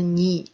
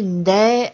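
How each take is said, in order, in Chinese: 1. 这个词结尾的元音是 'i'。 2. 这个词结尾的元音是 'e'。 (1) "口语当中、歌词当中呢，这个ne 的发音都会读成ni" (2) "其实它的这个读音应该是네"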